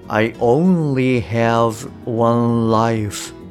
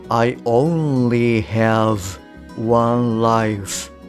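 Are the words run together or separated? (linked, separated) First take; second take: separated; separated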